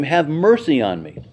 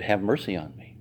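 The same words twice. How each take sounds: First: A slightly raised call for mercy; mock cry out. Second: A soft, low, muted begging; quiet plea. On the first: The mother cries out to Jesus, a mild call. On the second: Retold or imitated. The mother asks Jesus for mercy, a soft plea. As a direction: hold it back, low and soft. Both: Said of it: "She cried out to him".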